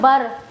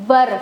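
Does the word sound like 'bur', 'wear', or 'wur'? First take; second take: bur; bur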